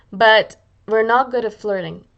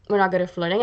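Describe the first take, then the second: First: BUT leaned on, slow and louder; firm slow "But we're not good at flirting"; firm emphasis. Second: Said in the usual way. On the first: Shown as a demonstration. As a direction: land hard on "But", drawn out.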